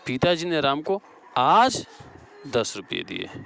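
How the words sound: The stress falls on आज. "यहाँ आज हो जाएगा।"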